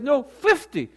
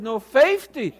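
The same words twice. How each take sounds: First: Loud, high correction, "fifty" as "FIF-tee"; mock-firm correction with standard "fifty", raised pitch; standard pronunciation. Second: Louder, higher Southern "FAY-fty"; mock-adamant Southern vowel, belted out; Southern dialect. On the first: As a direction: insist on short-vowelled "fifty". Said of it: "You mean to say fifty". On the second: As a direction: stubbornly insist on Southern "fifty". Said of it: "practicing the Southern dialect fifty".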